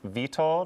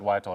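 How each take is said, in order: First: The name is said with a Polish pronunciation. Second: The name is said with an American pronunciation. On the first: This is the name's original form. "in the traditional Polish pronunciation" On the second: This is the adapted form the family uses. "kind of Americanize it"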